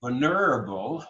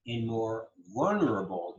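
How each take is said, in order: First: "vulnerable" as vul-NER-able; wrong-syllable stress. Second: "vulnerable" as VUL-nerable, first syllable stressed; natural stress. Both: Shown as a demonstration. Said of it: "not vulnerable".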